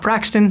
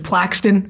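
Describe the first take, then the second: First: The second consonant is an R sound. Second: The second consonant is an L sound. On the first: The speaker calls it wrong. "and not Praxton, so we've been saying it wrong" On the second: The speaker calls it right. "it's actually Plaxton"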